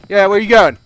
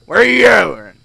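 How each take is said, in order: First: Loud call after someone leaving; loud clerk calling out; yelling after customer. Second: Loud, insistent repeat; yelling after customer. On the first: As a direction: shout where they're going. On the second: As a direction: call out again, louder. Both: Acted.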